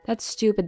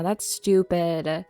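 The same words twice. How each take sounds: First: Said in the usual way. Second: Drawn out very slowly; slow, deadpan self-verdict. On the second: Real, not acted. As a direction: stretch each word of That's stupid. Repeats a self-judgement.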